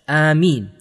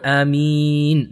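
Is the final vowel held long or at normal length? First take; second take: normal; long. First: The final vowel has normal length. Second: The final vowel is drawn out long. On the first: "to pronounce Ameen is basically as such" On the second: "And if we make it longer"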